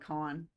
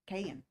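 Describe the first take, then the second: First: The name sounds like 'con'. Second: The name does not sound like 'con'. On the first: The speaker calls it right. "It's probably Con" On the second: The speaker calls it wrong. "I'm probably saying it wrong"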